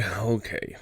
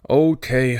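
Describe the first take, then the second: First: Softer, giving in; resigned okay. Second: Louder, fed-up okay; exasperated okay. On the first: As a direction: let it drop, resigned. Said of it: "second okay, resigned". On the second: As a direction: throw up your hands. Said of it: "George exasperated repeats okay". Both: Acted.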